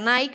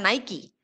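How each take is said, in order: First: The name is said the common Spanish way. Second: The name is said the brand's intended way. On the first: The speaker calls it wrong. "Nike no se pronuncia Nike" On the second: The speaker calls it right. "sino que se pronuncia Nike"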